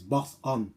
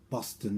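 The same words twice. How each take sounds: First: The word is said without a t sound. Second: The word is said with a t sound. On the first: The speaker calls it right. "there's no T in it. So it's Boston" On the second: The speaker calls it wrong. "That's what he's trying to pronounce it"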